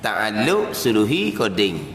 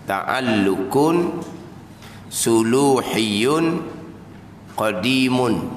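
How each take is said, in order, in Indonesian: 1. Setiap kata berakhir tanpa akhiran -un. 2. Setiap kata berakhir dengan akhiran -un penuh. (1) "kalau kita jadi kod Melayunya"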